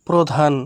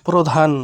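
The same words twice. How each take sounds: Both takes have the same delivery.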